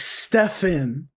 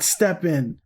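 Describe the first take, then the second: First: The middle consonant is an f sound. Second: The middle consonant is a p sound. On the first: The speaker calls it right. "It's Stefan" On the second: The speaker calls it wrong. "It's not Steppen"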